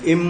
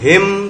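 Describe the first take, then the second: First: The word is said without the h sound. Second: The word begins with an h sound. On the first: "तो ये केवल इम हो गया" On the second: "एच आई एम हिम"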